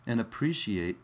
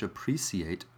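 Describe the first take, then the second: First: Appreciate with a sh sound, ap-pree-shee-ate; American appreciate. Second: Appreciate with a clear s, ap-pree-see-ate; British appreciate. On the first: To British viewers, appreciate said the American way. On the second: For British viewers, appreciate said the British way. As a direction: say appreciate the British way, soft and low. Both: Shown as a demonstration. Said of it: "or if you're British".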